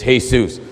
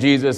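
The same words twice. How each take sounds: First: The name begins with an H sound. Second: The name begins with a J sound. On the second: "The way you say the name Jesus"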